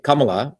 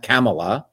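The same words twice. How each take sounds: First: "Kamala" with first vowel as in "come"; Tamil pronunciation. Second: "Kamala" with a flat A as in "camel"; mispronunciation. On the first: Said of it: "with the Tamil Indian accent". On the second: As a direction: say Kamala wrongly as CAM-uh-luh. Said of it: "not Kamala". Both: Shown as a demonstration.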